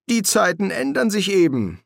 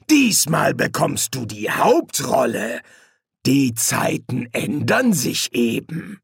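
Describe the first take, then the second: First: Breezy, higher-pitched delivery; higher voice at a normal pace; casual demon's remark. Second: Slow, drawn-out taunt; slow villainous relish; gloating menacing demon. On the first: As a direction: toss it off in a high, easy voice. Crowley's casual reply, later echoed by Hastur. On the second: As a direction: savour every word as you turn it back on him. Hastur gloats, echoing Crowley's words. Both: Acted.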